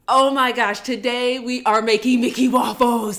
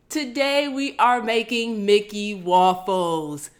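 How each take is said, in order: First: It is said with high, loud excitement. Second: It is said in a calmer, ordinary tone.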